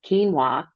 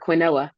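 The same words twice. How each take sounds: First: The word does not sound like its spelling. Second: The word sounds just like its spelling.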